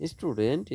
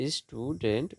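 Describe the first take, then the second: First: Said in the usual way. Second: "student" as two beats, stew, dent; split into syllables. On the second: Shown as a demonstration. Teacher dividing syllables for students, "student" split in two. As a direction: separate the halves of "student". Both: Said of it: "syllable বিভাজন".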